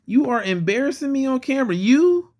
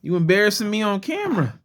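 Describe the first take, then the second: First: Higher, emphatic "You are embarrassing me"; mock scolding. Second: Said in the usual way. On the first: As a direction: playfully tell off a misbehaving toy, spelling out "You are". Repeats mock scolding, more emphatically.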